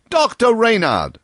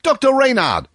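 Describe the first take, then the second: First: High loud hail repeated; loud repeated call to Doctor Reynard; calling out again. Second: High loud hail across the road; loud call to Doctor Reynard across the road. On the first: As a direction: keep hailing across the road. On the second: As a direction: shout to a friend at a distance. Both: A narrator's reading. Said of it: "calling out".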